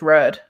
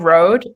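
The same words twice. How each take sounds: First: It is said in a northern British accent. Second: It is said in a standard accent. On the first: "my northern British accent" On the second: "instead of road"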